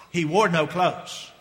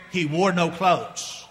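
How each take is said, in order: First: Slow repeat. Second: Slow dramatic reveal. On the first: Repeated slowly for effect. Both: Acted.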